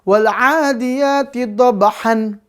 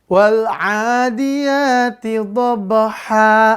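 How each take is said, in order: First: The last word ends with an n sound. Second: The last word ends with a two-count long a. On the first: The speaker calls it wrong. "salah lagi ya" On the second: The speaker calls it right. "bacaan panjang ditambah alif, lalu dihilangkan tanwinnya"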